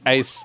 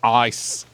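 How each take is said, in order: First: The vowel sounds like a milder 'ay'. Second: The vowel is broad, sounding like 'ice'. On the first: "I don't even say it with, like, the proper ice" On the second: "the proper ice, like a true Australian"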